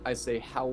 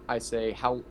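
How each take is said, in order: Both takes have the same delivery.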